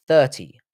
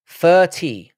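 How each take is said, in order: First: "Thirty" with a clear th; careful th. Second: "Thirty" as "fir-tee", slower, higher and louder; London f for th. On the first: Streamer showing both ways they say it, careful th. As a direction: start "Thirty" with a proper th. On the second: Streamer owning the London way, "Thirty" starting with f. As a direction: stretch "Thirty" out with an f. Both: Shown as a demonstration. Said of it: "It's how I say it".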